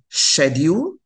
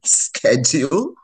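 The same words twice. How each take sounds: First: The word is said with a British pronunciation. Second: The word is said with an American pronunciation. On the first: This is the speaker's habitual way of saying it. The speaker calls it wrong. "I would say schedule" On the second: This is the way the speaker was expected to say it. The speaker calls it right. "when I'm supposed to be saying schedule"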